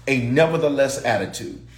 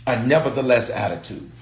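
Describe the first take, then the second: No difference in how they are said.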